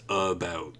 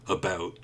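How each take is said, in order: Both takes have the same delivery.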